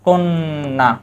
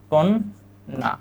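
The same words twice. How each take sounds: First: Said in the usual way. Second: "কন্যা" slow and soft, as kon, pause, naa; doubled-consonant demo. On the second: Shown as a demonstration. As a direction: split "কন্যা" between its two n sounds. ("কন্যা" ধীরে কন-না করে ভেঙে বলা) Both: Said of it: "দ্বিত্ব হয়েছে".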